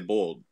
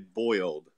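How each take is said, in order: First: The word is said quickly as one clipped syllable. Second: The word is said in full, two-part form. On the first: The speaker calls it right. "You say bold. ... it's real quick" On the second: The speaker calls it wrong. "You don't say boiled"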